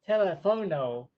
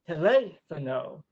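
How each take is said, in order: First: The stress is not on the second syllable. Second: The stress is on the second syllable. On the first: The speaker calls it wrong. "which is actually incorrect" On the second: The speaker calls it right. "in Spanish the accent is on the second syllable"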